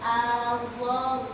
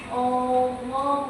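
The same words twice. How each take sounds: First: The opening glottal sound is light and thin. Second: The opening glottal sound is heavy and thick. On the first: The speaker calls it right. "hamzahnya tipis" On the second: The speaker calls it wrong. "Jangan Allah, bukan"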